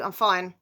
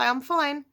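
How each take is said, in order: First: A slightly louder, pointed I'm fine; eye-roll I'm fine. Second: Said in the usual way. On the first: Shown as a demonstration. Annoyed woman brushing off her partner: lightly sarcastic. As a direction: let fine sound fed up. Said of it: "If I do ... with an eye roll to follow". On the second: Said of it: "If I say".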